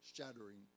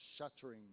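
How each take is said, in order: First: The middle T is a quick flap. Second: The middle T is a clear, crisp t. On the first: This is the everyday modern American style. "the way I might say it" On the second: This is an older, formal American style. "the intervocalic T's being produced as"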